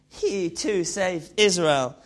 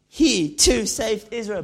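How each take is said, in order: First: It is spoken with a French accent. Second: It is spoken in a London street-slang accent. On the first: "the new French version" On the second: "the new Ali G version"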